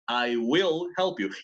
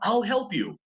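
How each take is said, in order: First: The words I will are said in full. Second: The words I will are contracted.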